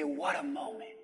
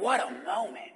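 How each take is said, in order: First: It is said at a normal volume. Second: It is said loudly.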